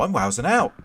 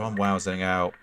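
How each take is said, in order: First: It sounds positive, like something good. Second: It sounds negative, like something bad.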